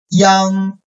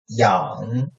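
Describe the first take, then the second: First: The pitch stays high and level. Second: The pitch dips low, then rises slightly.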